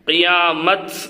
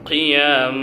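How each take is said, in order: First: The word ends with a t sound. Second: The word ends with an h sound. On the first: The speaker calls it wrong. "கியாமத் அப்படி நிப்பாட்டிடக்கூடாது" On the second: The speaker calls it right. "கியாம அப்படி நிப்பாட்டணும்"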